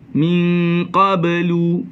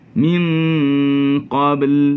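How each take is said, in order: First: The word ends with an added vowel. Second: The word ends abruptly on a consonant. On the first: The reader continues without stopping. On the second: The reader stops at this word.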